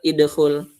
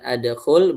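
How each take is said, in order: First: The word begins with an i vowel. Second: The word begins with an a vowel. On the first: "bukan juga idkhul" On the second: "bukan adkhul"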